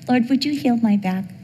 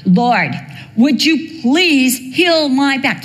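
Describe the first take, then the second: First: It is said calmly and quietly. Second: It is said strongly and forcefully.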